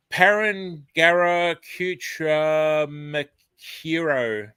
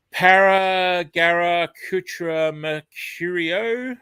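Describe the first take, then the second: First: "Parangarakutra Mercuro" drawn out very slowly, each syllable placed deliberately; second careful attempt. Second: "Paragarakutra Mercurio" sounded out very slowly, syllable by syllable; careful pronunciation attempt. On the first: Host retries the viewer's word challenge, slow and deliberate. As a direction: take a breath and sound out "Parangarakutra Mercuro" slowly. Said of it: "Okay, let's do this".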